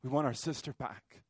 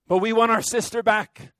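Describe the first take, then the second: First: Much softer, hushed repeat of the plea; quiet grief. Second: Loud, higher plea pressing on want; pleading cry. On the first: Real, not acted. Preacher echoing the prayer for his sister, soft and grieving. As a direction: let it fall to a grieving hush. Quiet echo after the rage. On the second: Acted. Preacher voicing the congregation's prayer, loud pleading cry. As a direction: cry out for the sister back. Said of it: "we pray".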